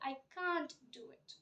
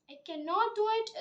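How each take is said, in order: First: The negative is contracted into one syllable. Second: The negative is said in full as two syllables. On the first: The speaker calls it right. "but you should say" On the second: The speaker calls it wrong. "is like a large sample"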